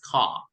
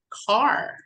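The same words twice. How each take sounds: First: The final r sound is dropped. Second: The final r sound is pronounced. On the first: "British would read it as car" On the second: "Car for American"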